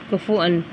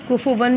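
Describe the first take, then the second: First: A glottal stop comes before the final vowel. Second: A w sound comes before the final vowel. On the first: "हमज़ा हमज़ा के ऊपर दो ज़बर है" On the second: "कुफ़ुवन भी पढ़ा जाता है"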